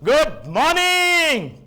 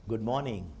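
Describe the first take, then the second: First: Loud, high, ringing good morning; गुड morning called out bright and loud; enthusiastic greeting. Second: Soft, lower, listless good morning; गुड morning said softly and flat; low-energy greeting. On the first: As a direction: greet the hall with full energy. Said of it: "लेकिन मैं बोला". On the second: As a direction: say it with no enthusiasm at all. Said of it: "अभी मैं यहाँ से ऐसा बोला". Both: Shown as a demonstration.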